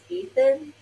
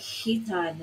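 First: The name is said with an American accent. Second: The name is said with an Italian accent. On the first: "Americans will pronounce this as Ethan" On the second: "It's like Hitan is how it's sounding because of his Italian accent"

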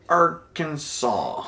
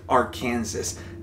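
First: The final s sound is silent. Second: The final s sound is pronounced. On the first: The speaker calls it right. "it is Arkansas" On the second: The speaker calls it wrong. "Not to be confused with Arkansas. That is not how you say it"

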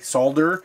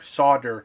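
First: The word is said with an L sound. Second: The word is said without an L sound. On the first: This is how it is said in other countries. "use the L and pronounce the L and say solder" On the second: This is how it is said in America. "S-O-D-E-R, solder. You don't actually pronounce the L"

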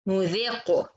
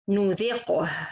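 First: The lips round, giving a u-like vowel. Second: The lips stay unrounded, keeping the i vowel. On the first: The speaker calls it wrong. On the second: The speaker calls it right.

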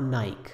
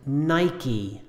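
First: The word has one syllable and ends in a consonant. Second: The word has two syllables and ends in a vowel. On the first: The speaker calls it wrong. "not Nike" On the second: The speaker calls it right. "This is two syllables and it ends in the vowel E"

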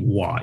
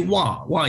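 First: The syllable is said on a very low tone. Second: The syllable is said on a higher tone. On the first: It is the speaker's name. The speaker calls it right. "My name Wa is a low tone, is the lowest" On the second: It means a different word. The speaker calls it wrong. "So if you say Wa is another word"

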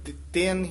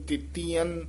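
First: The vowel after the t is short. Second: The vowel after the t is long. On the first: The speaker calls it right. "ਇਹ ਦਿੱਤਿਆਨ ਹੀ ਉਚਾਰਨ ਕਰਨਾ" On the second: The speaker calls it wrong. "ਕਈ ਦਿੱਤਿਆਨ ਬਿਹਾਰੀ ਨਾਲ ਬੋਲ ਜਾਂਦੇ ਨੇ"

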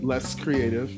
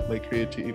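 First: The first word sounds like 'less'. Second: The first word sounds like 'lay'. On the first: The speaker calls it wrong. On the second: The speaker calls it right.

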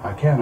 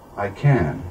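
First: It is said with more energy and force. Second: It is said slowly, calmly and quietly. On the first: "and then build it up" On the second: "start slow and calm and quiet"

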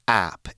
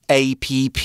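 First: It is said as one short syllable. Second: It is spelled out as three separate letters. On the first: The speaker calls it right. "it's app" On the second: The speaker calls it wrong. "It's not APP. Please don't make that mistake"

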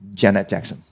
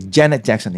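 First: The stress in Janet is on the second syllable. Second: The stress in Janet is on the first syllable. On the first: The speaker calls it wrong. "In Hong Kong, many people say it as" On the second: The speaker calls it right. "it should be"

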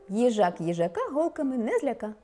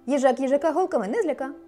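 First: The sentence is spoken at a faster pace. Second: The sentence is spoken at a very fast pace. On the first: "А тепер швидше" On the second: "А тепер ще швидше"

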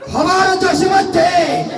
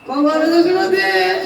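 First: It is declaimed like a political speech. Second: It is said while crying. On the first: The reciter is a politician giving speeches. "যে সমাজে বক্তৃতা দিয়ে বেড়ায় নেতা মানুষ" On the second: The reciter is overcome with grief. "যে শুধু কান্না করে"

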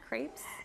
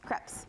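First: Crepes is said with an American pronunciation. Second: Crepes is said with a French pronunciation. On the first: "Am I just a total Utah girl?" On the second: "Let's just say it with the proper French pronunciation"

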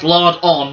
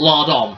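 First: It is said as two separate words. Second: It is said as one run-together word. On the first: The torches have lard smeared on them. The speaker calls it right. "That's lard on" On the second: The torches are covered in bits of bacon. The speaker calls it wrong. "it's not covered in bits of bacon"

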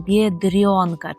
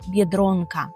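First: The r is softened before the vowel. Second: The r is hard before the vowel. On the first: The speaker calls it wrong. "Чомусь вам хочеться оце «р» пом'якшувати" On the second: The speaker calls it right. "Ми повинні казати твердо «дро»"

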